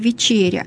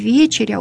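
First: The stress is not on the first syllable. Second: The stress is on the first syllable. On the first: The speaker calls it wrong. "это грубая ошибка" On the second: The speaker calls it right. "ударение должно падать на первый слог"

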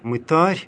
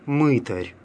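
First: The stress is on the second syllable. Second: The stress is on the first syllable. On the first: This is the Church Slavonic pronunciation. "в церковнославянском языке произносится с ударением на «а»" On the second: This is the usual Russian pronunciation. "в русском языке обычно"

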